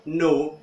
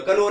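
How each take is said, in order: First: नो begun straight on n; silent K. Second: कनो with "ka" before the n; sounded K. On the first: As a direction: say नो without any k. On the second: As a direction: say कनो, k wrongly voiced. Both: Shown as a demonstration. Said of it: "कनो नहीं बोलेंगे".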